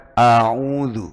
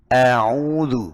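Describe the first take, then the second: First: A'udzu slow, the a darkened toward o; wrong a'udzu. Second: A'udzu with a clear plain a; correct a'udzu. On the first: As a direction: show the wrong dark a'udzu. (a'udzu yang salah) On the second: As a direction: say a'udzu with a light a. (a'udzu yang benar) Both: Shown as a demonstration. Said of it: "bukan a'udzu".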